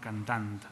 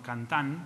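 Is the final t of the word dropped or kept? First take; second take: kept; dropped. First: The final consonant cluster is kept, ending in t. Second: The final consonant cluster is simplified, dropping t. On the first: This form is used by varieties that keep final clusters. "però no les que utilitzen la forma cantant" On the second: This form is used by varieties that simplify final clusters. "que afecta les varietats que utilitzen la forma cantant"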